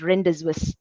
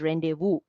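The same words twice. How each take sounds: First: It is read literally, letter by letter as spelled. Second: It is said unlike its spelling, not letter by letter. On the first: The speaker calls it wrong. "If you read it literally" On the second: The speaker calls it right. "you have to call it as rendezvous"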